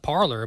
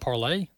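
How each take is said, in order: First: The word ends with an 'er' sound. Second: The word ends with an 'ay' sound. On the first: "I call it Parler" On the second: "some people call it Parlay"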